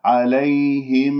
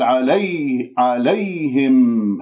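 First: Slow "عليهم" with a smooth "ay" glide; soft ya. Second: "عليهم" with a pushed, tense y; wrongly doubled ya. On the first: Teacher models it rightly after the mistake, soft ya in عليهم. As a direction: ease through the ي without pushing it. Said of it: "لأنها ساكنة قبلها مفتوح". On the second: Teacher shows the accent mistake, over-pressed ya in عليهم. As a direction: lean hard on the ي as if doubled. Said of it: "هكذا نبرتها، وأنه حسستني بأنها مشددة". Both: Shown as a demonstration.

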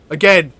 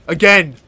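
Both takes have the same delivery.

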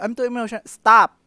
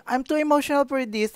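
First: High overwhelmed line then a loud stop; mean it and cut it off; serious. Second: Lightly mocking, high, half-hearted complaint; not serious. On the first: Demonstrating the right way to quit a video, hammed-up. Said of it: "Dapat pag". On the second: Demonstrating the wrong way to quit a video, mock. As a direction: say it but don't mean it. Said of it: "Hindi ganun serious. Mali yun". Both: Shown as a demonstration.

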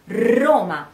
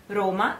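First: "Roma" with a long trilled initial R; Spanish rolled R. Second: "Roma" with a short, lightly tapped initial R; Italian single R. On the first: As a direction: trill the R hard at the start of "Roma", Spanish-style. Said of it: "it's Spanish". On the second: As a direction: tap the R just briefly in "Roma", Italian-style. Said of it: "it is Italian". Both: Shown as a demonstration.

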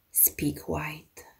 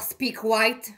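First: Quiet command. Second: Higher, forceful barked order; harsh barking commands. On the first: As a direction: say it softly, restrained. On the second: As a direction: bark it like a foreman. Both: Acted. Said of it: "Un peu plus fort alors".

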